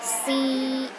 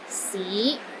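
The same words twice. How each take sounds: First: The pitch stays high and level. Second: The pitch rises from low to middle. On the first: "The first tone is high and steady" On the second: "starts low, then rises to the middle of your range"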